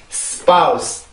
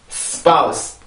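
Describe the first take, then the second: First: The word is said as one quick syllable. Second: The word is said as one quick syllable.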